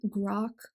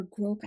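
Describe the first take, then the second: First: Grok said to rhyme with "rock"; alternative pronunciation. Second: Grok said to rhyme with "oak"; alternative pronunciation. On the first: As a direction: say Grok with an open "ah" vowel. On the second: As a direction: say Grok with a long "oh" vowel. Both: Shown as a demonstration. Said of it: "I don't know how you say it".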